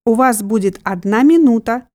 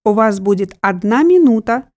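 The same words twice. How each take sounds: The two takes are said the same way.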